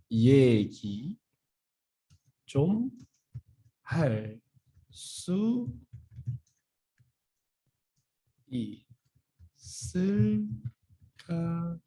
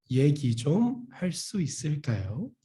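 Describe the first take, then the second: First: 얘기 좀 할 수 있을까요 drawn out word by word with pitch jumps on 좀 and 수; slow, syllable by syllable. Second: Said in the usual way. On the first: Shown as a demonstration. Teacher showing students the phrase slowly, word by word. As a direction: pause between each word of 얘기 좀 할 수 있을까요. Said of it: "So like I emphasize". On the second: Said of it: "How we can say?".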